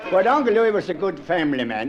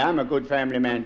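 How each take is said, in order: First: Uncle leaned on as the contrast; stress on Uncle. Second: I'm leaned on, said lower; I'm gets the weight, a good family man too; stress on I'm. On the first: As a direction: tip the weight onto Uncle. Contrasting himself with Uncle Louis. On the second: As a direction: set I'm against Uncle Louis. Claiming the same for himself. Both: Shown as a demonstration.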